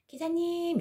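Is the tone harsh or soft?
soft. It is called out softly and gently.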